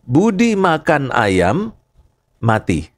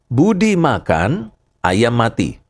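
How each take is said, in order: First: The pause comes right after ayam. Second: The pause comes right after makan. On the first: Budi died from eating chicken. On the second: Budi is eating, and a chicken died elsewhere.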